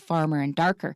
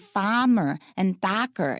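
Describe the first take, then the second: First: The R sounds are pronounced. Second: The R sounds are left out. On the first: The speaker calls it right. "instead of farmer and darker" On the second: The speaker calls it wrong. "when you ignore the R's, they'll say farmer and darker"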